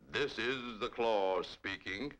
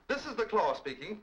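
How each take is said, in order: First: It is said in a deep baritone voice. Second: It is said in a higher, normal voice.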